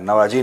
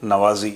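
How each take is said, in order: First: The middle consonant is a j sound. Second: The middle consonant is a buzzing z sound. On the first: The speaker calls it wrong. "नवाजी नहीं है" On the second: The speaker calls it right. "नवाजी आप सुन रहे हैं"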